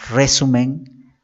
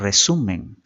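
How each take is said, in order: First: The stress is on the first syllable. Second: The stress is on the second syllable. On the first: The speaker calls it wrong. "no decimos resumen" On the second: The speaker calls it right. "decimos resumen"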